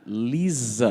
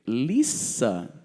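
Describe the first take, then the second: First: The middle consonant is a buzzing z sound. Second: The middle consonant is a hissing s sound. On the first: This is the Brazilian way of saying it. The speaker calls it wrong. "é assim que a gente fala no Brasil" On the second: This is the English way of saying it. The speaker calls it right. "Você não percebeu que é Lisa?"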